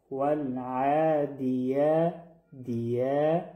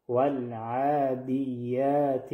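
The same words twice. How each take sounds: First: والعادیه chanted slowly with a short "di" before a long "yaa"; slow, correct "di-yaa" in والعادیه; separate dal and ya. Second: والعادیات wrongly chanted with "dii" lengthened into the ya; slow, mistaken "diiy-yaat" in والعادیات; wrong stretched "di". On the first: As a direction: keep "di" brief in والعادیه, then stretch the ya. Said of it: "حرف دال با یا جنگ نکنه". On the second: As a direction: drag the dal of والعادیات into a long "diy-ya". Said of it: "اشتباه هست". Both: Shown as a demonstration.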